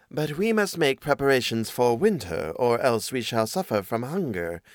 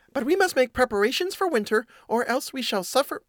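First: Measured storybook cat, at natural pitch. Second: High-pitched little mouse voice; mouse voice by mistake. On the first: Cat warning the mouse about winter, in the cat's voice. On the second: Urging winter preparations to the housemate, in a high mouse voice. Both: Acted. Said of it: "oh, that's the cat".

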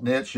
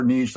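First: Niche with a short i, rhyming with pitch; niche as "nitch". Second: Niche with a long ee, rhyming with leash; niche as "neesh". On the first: Coach giving the way they call it, niche said "nitch". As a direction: end niche on a hard "tch". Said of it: "which I call it". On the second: Coach allowing what you prefer, niche said "neesh". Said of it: "If you prefer niche". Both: Shown as a demonstration.

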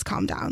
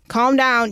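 First: Hushed mock quote. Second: Said in the usual way. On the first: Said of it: "when someone says". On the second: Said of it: "ever has happened in history".

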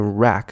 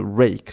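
First: RACK with short A, as in apple. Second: RAKE with a clear AY glide; long A. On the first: Teacher contrasting two words for learners, short-A RACK. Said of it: "可是你念rack是架子". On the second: Teacher contrasting two words for learners, long-A RAKE. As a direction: say RAKE with long A, ending toward ee. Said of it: "长母音变短母音就会不对". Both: Shown as a demonstration.

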